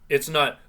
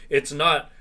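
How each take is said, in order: No difference in how they are said.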